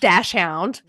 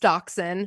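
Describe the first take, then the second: First: The word begins with a 'dash' sound. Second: The word begins with a 'dox' sound. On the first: This is how one family says it. "My family says dashhound" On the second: This is the standard way to say it. "I know it's dachshund"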